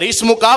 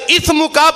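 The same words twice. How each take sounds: First: اس مکا said "ismuka" with a clear s; اس مکا with a clean s sound; correct seen. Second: اس مکا said "ithmuka", th for s; اس مکا with the s turned into th; wrong th sound. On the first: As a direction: pronounce اس مکا properly, seen not tha. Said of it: "تیرا نام بہت برکت والا ہے". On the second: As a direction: mispronounce اس مکا with tha instead of seen. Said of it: "وہ گناہ بہت برکت والا ہے". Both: Shown as a demonstration.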